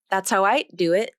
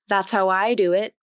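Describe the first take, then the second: First: The D in "I'd" is devoiced, like T. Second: The D in "I'd" is dropped entirely. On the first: "the D sound will be devoiced, which will make it sound more like a T consonant" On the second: "the D sound will be omitted completely"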